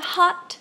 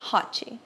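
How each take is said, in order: First: The word ends cleanly on the final consonant. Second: An extra vowel is added after the final consonant. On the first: The speaker calls it right. "Ao invés de falar hot" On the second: The speaker calls it wrong. "nós falamos hot"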